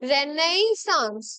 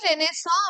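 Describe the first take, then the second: First: The word ends with a clear 'ns' sound. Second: The word ends on a vowel, without 'ns'. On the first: This follows the written spelling. "প্রোনাউন্সিয়েশনটা actually কি হওয়া উচিত যদি মানে spelling এর দিক থেকে দেখতে গেলে" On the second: This is how people actually say it. "কিন্তু এটা কি রেনেসা আমরা প্রোনাউন্স করবো"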